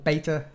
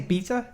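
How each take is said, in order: First: It is said in an American accent. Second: It is said in a British accent. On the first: "if you want to be the American pronunciation" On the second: "I want to say beta"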